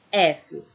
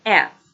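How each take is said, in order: First: F said as efe, with a final E; Portuguese letter name, efe; F with the Portuguese E ending. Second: F said as ef, no final vowel, louder; clipped English ef, punched; F as English ef, final E dropped. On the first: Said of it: "em português eu tenho". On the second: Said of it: "E English". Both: Shown as a demonstration.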